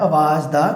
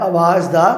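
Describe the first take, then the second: No difference in how they are said.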